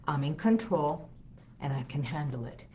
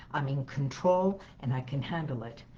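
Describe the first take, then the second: No difference in how they are said.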